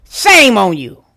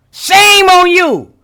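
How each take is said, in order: First: Said in the usual way. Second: Slow, higher shaming drawl; slow, higher, drawn-out mock scold. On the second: Real, not acted. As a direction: stretch it out like a disappointed auntie. Scolding Mariah, repeated stronger.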